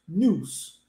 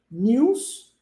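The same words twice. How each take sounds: First: "news" as nooz, lower and falling; no Y in "news", just nooz; news without glide. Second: "News" as nyooz, rising at the end; news with glide. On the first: Teacher recapping the difference, "news" as nooz. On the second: Teacher recapping the difference, "News" as nyooz. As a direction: put a Y sound after the N in "News". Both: Shown as a demonstration. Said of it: "Viu a diferença?".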